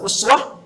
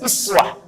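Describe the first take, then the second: First: The word begins with an 'u' vowel. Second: The word begins with an 'i' vowel. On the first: This is the reading of one transmission line. "Bisa uswah, riwayat Hafiz dari Asim" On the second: This is the reading of another transmission line. "bisa iswah, riwayat Qalun Tawarsh dari Nafi'"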